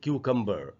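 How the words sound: The final r sound is pronounced. This is the American pronunciation. "अगर American English में इसको पढ़ना होता तो हम पढ़ते"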